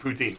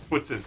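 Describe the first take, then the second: First: It is said with an English-style pronunciation. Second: It is said with a French-style pronunciation. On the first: "internationally poutine" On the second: "In Canada, if you know how to speak French, it's poutine"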